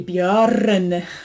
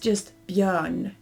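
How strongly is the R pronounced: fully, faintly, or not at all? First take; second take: fully; faintly. First: The R is pronounced fully and clearly. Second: The R is only faintly hinted at. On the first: The speaker calls it wrong. "You don't say björn. Sounds very weird" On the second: The speaker calls it right. "You pronounce it, but just a teeny, teeny, tiny bit"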